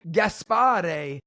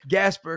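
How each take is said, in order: First: The first name is said with three syllables. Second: The first name is said with two syllables. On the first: This is the formal original form of the name. "technically [name], but I don't pronounce it like that" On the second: This is the everyday American form of the name. "I just say Gasper because I'm American"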